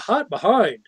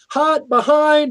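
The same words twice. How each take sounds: First: It sounds like a playful, flirtatious remark. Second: It sounds like a brisk, urgent warning. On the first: Someone has an attractive backside. "opposed to" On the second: Someone is carrying hot food behind you. "if you're walking behind somebody with hot food"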